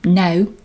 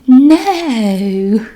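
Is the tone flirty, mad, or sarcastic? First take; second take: mad; flirty. First: It is said in an angry tone. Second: It is said in a flirty tone.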